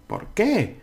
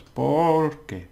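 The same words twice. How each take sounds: First: ¿Por qué? said much higher with the stress on qué. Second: ¿Por qué? with POR stressed, means because. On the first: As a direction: lift and hit the qué. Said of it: "if I put the accent here". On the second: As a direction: lean on POR. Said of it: "That means because". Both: Shown as a demonstration.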